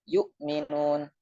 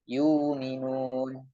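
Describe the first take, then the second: First: A full glottal stop closes the first syllable. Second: The glottal stop becomes a lengthened vowel. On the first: "Kita harus mengucapkan hamzah sukun dengan sempurna" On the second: "Maka dibaca dengan dirubah menjadi huruf mad"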